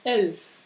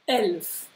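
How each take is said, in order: The two takes are said the same way.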